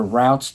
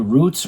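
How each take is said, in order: First: "Routs" with an ow vowel; "Routs", the ow version of the name; ow pronunciation. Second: "Roots" with a long oo vowel; "Roots", the oo version of the name; oo pronunciation. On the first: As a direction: say "Routs" to rhyme with shouts. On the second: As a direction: say "Roots" to rhyme with boots. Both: Shown as a demonstration. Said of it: "depending on how you wanna pronounce it".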